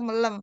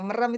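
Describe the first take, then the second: First: The middle consonant is an L sound. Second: The middle consonant is a clear R sound. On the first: The speaker calls it wrong. "jangan dicadel-cadelin. Misalnya eh, apa? eh melem" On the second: The speaker calls it right. "merem itu melem"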